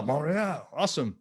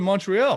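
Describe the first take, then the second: First: Hammed-up French-accented Montreal; bad French accent. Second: Said in the usual way. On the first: Shown as a demonstration. Host greeting viewer from Montreal, joking French accent. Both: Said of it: "That's a horrible accent".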